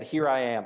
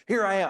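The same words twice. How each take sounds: First: Said in the usual way. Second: Higher, eager Here I am; relieved eager answer. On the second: Retold or imitated. Abraham answering the angel's call, relieved and eager. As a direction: blurt it out in sudden relief. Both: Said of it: "a big sigh of relief".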